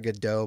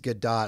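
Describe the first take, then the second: First: The name is said with an anglicized pronunciation. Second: The name is said with its Israeli pronunciation. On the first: This is how some other people say the name. The speaker calls it wrong. "I've heard people call her Godot" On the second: This is how the name is properly said. The speaker calls it right. "I think the Israeli proper Israeli pronunciation is Gadot"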